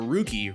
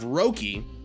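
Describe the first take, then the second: First: The first vowel sounds like 'oo'. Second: The first vowel sounds like 'oh'. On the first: The speaker calls it right. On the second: The speaker calls it wrong.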